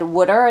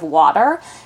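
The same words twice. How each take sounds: First: It is said with a Philadelphia regional accent. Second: It is said without a regional accent. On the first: This is a regional habit from growing up. The speaker calls it wrong. "my sisters always said water" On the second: This is the usual form without the regional habit. The speaker calls it right. "instead of water"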